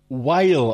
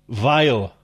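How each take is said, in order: First: The name begins with a W sound. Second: The name begins with a V sound. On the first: "when I look at James's name, I would say Weil" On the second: "I'm going to say vile. Like that. You don't pronounce the W"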